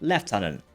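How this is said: It is said in an English accent.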